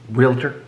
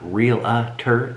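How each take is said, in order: First: It has no extra middle syllable, two in all. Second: It has an extra middle syllable, three in all. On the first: The speaker calls it right. "it's realtor" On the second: The speaker calls it wrong. "it's not real-a-ter"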